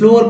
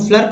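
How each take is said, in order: First: The vowel is an 'oh' sound. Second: The vowel is a short 'uh' sound. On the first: The speaker calls it right. "यानी कि ओ का उच्चारण यहाँ पर हुआ" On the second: The speaker calls it wrong. "गलत"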